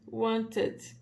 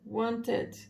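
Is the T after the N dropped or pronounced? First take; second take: pronounced; pronounced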